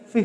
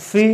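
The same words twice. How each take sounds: First: ফি as an aspirated English p, soft and slow; correct pronunciation. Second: ফি said with a Bangla ফ, slow; wrong pronunciation. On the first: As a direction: puff the p in ফি like a native. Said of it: "something like that". (ইংরেজি প-তে হাওয়া দিয়ে ফি) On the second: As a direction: say ফি like the Bangla ফ letter. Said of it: "not like that". (Bangla ফ দিয়ে ফি, ভুল উচ্চারণ) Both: Shown as a demonstration.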